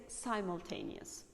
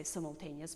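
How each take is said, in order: First: "simultaneous" opening with "sime"; long first vowel in "simultaneous"; "simultaneous" as "sigh-mul-taneous"; American long I. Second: "simultaneous" opening with "sim"; short first vowel in "simultaneous"; "simultaneous" as "sim-ul-taneous"; British short I. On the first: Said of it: "American people say". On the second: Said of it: "British people say". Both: Shown as a demonstration.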